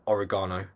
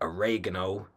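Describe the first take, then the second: First: Oregano is said with a non-American pronunciation. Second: Oregano is said with an American pronunciation.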